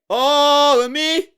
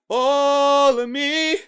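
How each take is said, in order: No difference in how they are said.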